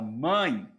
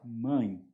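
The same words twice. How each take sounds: First: The word is said loudly and strongly. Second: The word is said softly and quietly. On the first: The word seems stressed. "parece que é tônico" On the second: The word seems unstressed. "baixinho desse jeito, parece que ele é átono"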